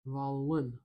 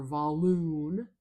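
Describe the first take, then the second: First: "Volun" with a short, reduced second vowel; schwa in second syllable. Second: "volun" ending in a long, loud "loon"; wrong OO vowel. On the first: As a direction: relax the end of "Volun" to a schwa. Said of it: "I'm going to use a schwa there". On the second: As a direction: stretch "volun" into vol-OON. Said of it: "I'm not saying volun or volun". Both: Shown as a demonstration.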